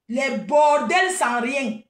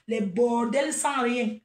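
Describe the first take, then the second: First: Les bordels sans rien, slow and louder, each word spaced; slow emphatic repeat. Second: Said in the usual way. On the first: Shown as a demonstration. Mocking the women she scolds, slow and louder.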